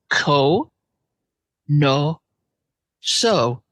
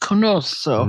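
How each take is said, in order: First: The three syllables are said slowly and separately. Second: The syllables are run together quickly as one word.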